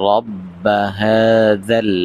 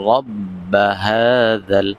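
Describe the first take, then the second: Both takes have the same delivery.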